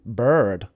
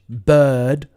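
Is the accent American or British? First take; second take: American; British. First: It is said with an American accent. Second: It is said with a British accent. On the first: "American bird" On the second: "British bird"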